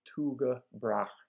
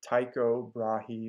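First: The name is pronounced in a Danish way. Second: The name is pronounced in an English way. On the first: "the pronunciation of the Danes themselves" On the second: "English speakers from different countries, including professors, pronounce his name in different ways"

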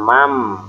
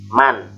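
First: The final n sound is not pronounced clearly. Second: The final n sound is pronounced clearly. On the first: The speaker calls it wrong. "bukan mam" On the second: The speaker calls it right. "maka si nunnya harus dibaca jelas"

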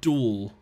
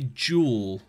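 First: The word starts with a D sound. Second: The word starts with a J sound. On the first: "I've always said duel with a D rather than like a J"

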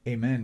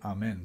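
First: Amen is pronounced the usual English way. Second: Amen is pronounced the Hebrew way. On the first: "so that's what the word amen means" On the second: "some people pronounce it amen because that's how you say it in Hebrew"

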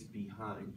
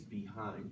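First: The stress falls on the second syllable. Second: The stress falls on the second syllable.

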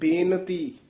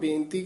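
First: The n sound is full and clear. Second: The n sound is weak and unclear. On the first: This is the correct recitation. The speaker calls it right. "ਸ਼ੁੱਧ ਬੇਨਤੀ" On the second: This is how people commonly say it. The speaker calls it wrong. "ਆਮ ਬੇਨਤੀ ਕਹਿ ਜਾਂਦੇ ਨਾ"

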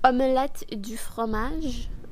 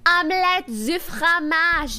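First: It is said small, quiet and contained. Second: It is said big, loud and open. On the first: The speaker calls it right. "like this. Small" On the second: The speaker calls it wrong. "not like that, no"

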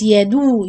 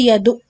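First: The ain is held with a brief continuing sound. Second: The ain is cut off abruptly like a glottal stop. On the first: The speaker calls it right. "you have to do this running in the articulation point" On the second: The speaker calls it wrong. "don't say yadu, yadu. It's like hamza and you cut off the sound"

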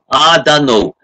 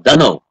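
First: It is said slowly with every word pronounced. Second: It is said quickly, dropping the first word.

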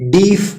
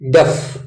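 First: The vowel is a long ee sound. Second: The vowel is a short sound. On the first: The speaker calls it wrong. "ಇದು ಡೀಫ್ ಆಗಲ್ಲ" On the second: The speaker calls it right. "ಡಫ್ ಡಫ್"

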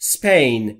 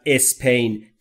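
First: The word starts directly with the s sound. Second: An extra vowel comes before the s sound. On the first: The speaker calls it right. "دقت بکنید تلفظ Spain" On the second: The speaker calls it wrong. "نگفتم اسپین"

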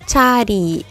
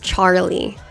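First: It is said with one merged R-like sound. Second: It is said with distinct R and L sounds. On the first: "In Japanese, you would say chari" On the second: "You have a R and a L sound that are adjacent"

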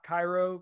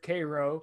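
First: It is said the way the Egyptian city is. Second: It is said the way Georgia locals say it. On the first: This names the city in Egypt. The speaker calls it wrong. "not Cairo" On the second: This names the town in Georgia. The speaker calls it right. "It's pronounced there Cairo"

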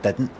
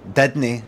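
First: It is said in the standard form. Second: It is said in the Glasgow dialect form. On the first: "instead of" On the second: "I say, I don't know, didn't"

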